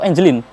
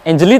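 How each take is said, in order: First: The name ends with an added n sound. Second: The name ends in a vowel, no final n. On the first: The speaker calls it wrong. "atau Angelin?" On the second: The speaker calls it right.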